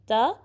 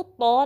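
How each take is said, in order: First: त with a thin dental t; short, light त. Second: तो as a full, rounded heavy t; round, heavy sound on तो; wrong heavy ta. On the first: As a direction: keep त fine and unrounded. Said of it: "ये बारीक वाला ता है". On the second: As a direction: thicken त into तो. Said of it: "ता को तो नहीं पढ़ना". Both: Shown as a demonstration.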